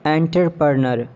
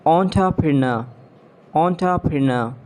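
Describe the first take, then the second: First: "Entrepreneur" as EN-ter-per-ner; mispronounced entrepreneur. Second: "Entrepreneur" as on-tuh-pri-NUH; British pronunciation. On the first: Acted. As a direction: sound every R in "Entrepreneur". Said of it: "you have to correct me". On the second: Shown as a demonstration. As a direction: open "Entrepreneur" with ON. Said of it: "exact pronunciation according to the British".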